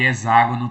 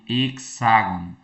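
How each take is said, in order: First: The x is sounded like a z. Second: The x is not sounded like a z.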